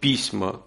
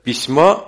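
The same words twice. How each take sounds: First: The stress is on the first syllable. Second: The stress is on the last syllable. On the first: The speaker calls it wrong. "он сказал «письма», то есть он сделал ударение на первый слог" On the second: The speaker calls it right. "Нужно было сказать «письма»"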